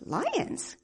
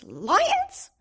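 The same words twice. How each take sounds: First: Lazy disbelieving echo; doubtful question. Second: Loud, high startled "Lions?"; half-asleep alarm, louder; startled question. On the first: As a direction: scoff at the idea sleepily. Simple doubts the lions. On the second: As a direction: jolt awake at the word. Simple wakes, hears about lions. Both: Acted.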